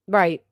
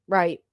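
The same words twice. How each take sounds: The two takes are said the same way.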